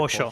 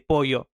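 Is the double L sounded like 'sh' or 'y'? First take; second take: sh; y. First: The double L sounds like English 'sh'. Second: The double L sounds like English 'y'.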